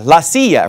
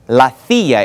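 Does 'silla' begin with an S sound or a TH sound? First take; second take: S; TH. First: The word begins with an S sound. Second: The word begins with a TH sound.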